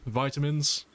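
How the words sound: It is said with an American pronunciation. "how do the Americans say it? ... That's how they say it?"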